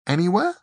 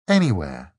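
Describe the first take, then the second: First: Surprised question. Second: Said in the usual way. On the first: A narrator's reading.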